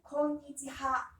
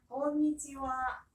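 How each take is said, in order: First: The last syllable is pronounced ha. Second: The last syllable is pronounced wa. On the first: This follows how the word is written. "스펠링은 꼬니치하" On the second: This is the normal spoken pronunciation. "정상적인 발음 다시 해볼게요"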